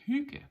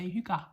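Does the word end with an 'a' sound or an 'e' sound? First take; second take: e sound; a sound. First: The word ends with a weak 'e' sound. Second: The word ends with an 'a' sound. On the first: The speaker calls it right. "we pronounce the G's as well as the G sound and an E at the end" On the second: The speaker calls it wrong. "not an A. A lot of people say hygge"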